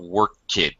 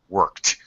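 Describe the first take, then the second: First: The ending adds an extra syllable sounding like id. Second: The ending is a T sound, one syllable. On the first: The speaker calls it wrong. "We're not not work kid" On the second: The speaker calls it right. "it can have a T pronunciation. Worked, worked, still one syllable"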